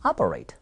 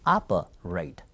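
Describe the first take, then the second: First: Operate run together as one low, falling word; joined model pronunciation. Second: Operate split into two parts, pitched low; slow model pronunciation. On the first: Teacher leading practice of operate, joined-up low model. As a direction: join operate up, pitched low. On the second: Teacher leading practice of operate, split low model. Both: Shown as a demonstration. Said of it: "해볼까요?".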